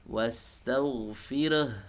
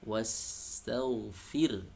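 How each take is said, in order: First: An extra vowel is added after the r. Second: The final h sound is dropped. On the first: "Ra-nya menjadi re" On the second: "huruf H di akhir itu menjadi hilang"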